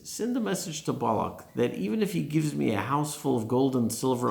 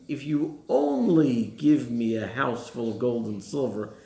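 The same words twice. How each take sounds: First: Said in the usual way. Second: Slow, leaning hard on the word "only"; stress on only. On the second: Shown as a demonstration. Reading the hidden meaning into Bilam's words, "only" stressed slowly. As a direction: draw out "only" slowly and make it the point. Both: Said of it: "Which the commentaries understand him saying".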